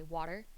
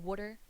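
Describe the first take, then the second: First: Said in the usual way. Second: "water" said as "wooder"; Pennsylvania pronunciation. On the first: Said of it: "I say water". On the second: Shown as a demonstration. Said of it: "pretty good about not saying".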